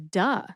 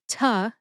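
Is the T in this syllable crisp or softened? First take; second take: softened; crisp. First: The T is softened, sounding close to a D. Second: The T is fully and crisply pronounced. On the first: The speaker calls it right. "you eat the T so it sounds more like a duh" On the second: The speaker calls it wrong. "having a pronounced T like ta"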